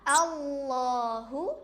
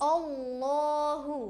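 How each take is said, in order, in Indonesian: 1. Vokal pertama terdengar seperti 'a'. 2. Vokal pertama terdengar seperti 'o'. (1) "hamzah di awal itu suaranya A" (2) "bukan O"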